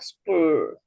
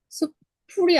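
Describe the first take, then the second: First: The p is unaspirated and tense. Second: The p is aspirated with a puff of air. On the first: The speaker calls it right. "이렇게 발음되는구나" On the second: The speaker calls it wrong. "아니라"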